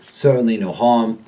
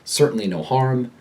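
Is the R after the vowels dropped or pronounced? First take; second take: dropped; pronounced. First: The R after each vowel is dropped. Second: The R after each vowel is clearly pronounced. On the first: "a New Yorker drops the R" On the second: "The typical American speaker pronounces the R"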